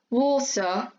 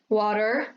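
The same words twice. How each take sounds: First: The middle T is a crisp, clear T. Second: The middle T sounds like a soft R. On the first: "in British English, you get a clear T and D sound" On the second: "Americans sometimes tend to butcher those sounds so that they sound more like R"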